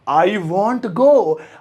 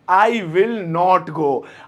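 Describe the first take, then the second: First: Will and not merge into one short word. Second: Will and not are said as separate words. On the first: "विल और नॉट को मिला के अंग्रेज बन सकते हैं, यानी कि वॉन्ट बोल सकते हैं" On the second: "बस नॉट ही तो लगाना है"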